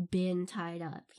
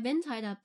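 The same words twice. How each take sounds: First: "been" drawn out slow and low; stress on been. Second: Said in the usual way. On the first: Real, not acted. Explaining the hardcore version to listeners, heavy stress on "been". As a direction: lean hard and slowly on "been", meaning the real thing. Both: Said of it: "but I haven't, like, been tied up".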